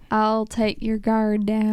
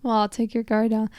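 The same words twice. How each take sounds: First: Slow attempted Southern drawl; Southern accent. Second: Said in the usual way. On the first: Shown as a demonstration. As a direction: try a Southern accent, stretched out slowly. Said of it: "say something with a Southern accent". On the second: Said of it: "trying to figure out how to say something".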